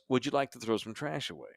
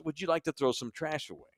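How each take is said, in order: First: Much softer polite question; soft-spoken flight attendant politely asking. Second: Much softer, politely asking; soft-spoken flight attendant politely asking. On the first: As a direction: gently offer to take the trash. Flight attendant quoted again. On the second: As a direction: quietly offer to take the trash. Flight attendant's polite question quoted. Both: Retold or imitated.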